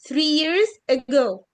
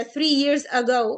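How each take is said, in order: First: Three years ago, slow, with ago starting on weak uh; schwa in ago. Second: Three years ago with a clearly sounded "a" in ago; slow, over-sounded A in ago; full A in ago. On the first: Teacher modelling three years ago, ago begins with schwa. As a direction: reduce the A of ago to uh. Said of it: "بنقول three years ago". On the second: Teacher showing the rejected three years ago, full A in ago. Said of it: "لا". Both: Shown as a demonstration.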